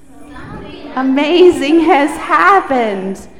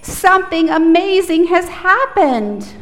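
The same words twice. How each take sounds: First: Loud group repeat. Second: Loud, high call-out; loud demo line; really loud. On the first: Real, not acted. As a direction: shout it back together. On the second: Shown as a demonstration. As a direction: belt it out for the kids to echo. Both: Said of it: "repeat after me really loudly".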